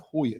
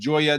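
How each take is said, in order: First: The name begins with a breathy H sound. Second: The name begins with an English J sound. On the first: The speaker calls it right. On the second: The speaker calls it wrong.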